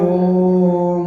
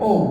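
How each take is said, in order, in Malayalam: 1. ഈ അക്ഷരം വളരെ നേരം നീട്ടിപ്പറയുന്നു. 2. ഈ അക്ഷരം പെട്ടെന്ന് മുറിച്ച് ചെറുതാക്കി പറയുന്നു. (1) "ദീർഘമായി ഓം ഇങ്ങനെ നീട്ടിക്കൊണ്ടുപോയി" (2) "ഓം ഓം ഇങ്ങനല്ല"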